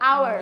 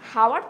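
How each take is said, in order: First: The word begins with a vowel sound. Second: The word begins with an h sound. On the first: The speaker calls it right. "এইচ consonant but সাউন্ডটা কি vowel" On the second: The speaker calls it wrong. "হাওয়ার তো আর হচ্ছে না"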